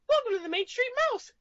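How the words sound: It is said in a Mickey Mouse voice.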